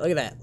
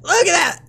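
First: Said in the usual way. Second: Very high, loud crow of triumph; triumphant shout. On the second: Real, not acted. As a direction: yell it out in excited celebration. Crows over correct report.

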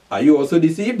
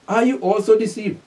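First: Said in the usual way. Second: "Are you also deceived" pitched higher; emphatic repeat. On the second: Shown as a demonstration. Preacher repeats the Pharisees' question to his listeners, emphatically.

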